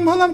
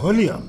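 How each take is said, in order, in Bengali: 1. শব্দটি 'iu' ছাড়া 'volam' হিসেবে উচ্চারিত হয়। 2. শব্দটি 'iu' সহ 'volume' হিসেবে উচ্চারিত হয়। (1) "ওর ভলাম ভলাম করতেছো কেন?" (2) "আরে ওটারে কয় ভলিউম।"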